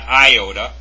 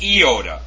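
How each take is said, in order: First: The letter name is pronounced in an anglicized way. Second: The letter name is pronounced in a Greek way. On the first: The speaker calls it wrong. "It's not" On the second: The speaker calls it right.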